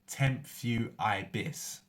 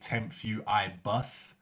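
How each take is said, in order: First: The last syllable sounds like 'bis'. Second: The last syllable sounds like 'bus'. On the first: The speaker calls it right. "So it's temp few I bis" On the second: The speaker calls it wrong. "Some people say"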